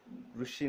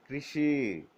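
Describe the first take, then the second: First: कृषि said as "krushi" with a u sound; कृषि pronounced "krushi", the wrong way; wrong pronunciation. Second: कृषि said as "krishi" with an ri sound; कृषि pronounced "krishi", the right way; correct Hindi pronunciation. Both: Shown as a demonstration. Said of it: "री जैसा होगा हिंदी में".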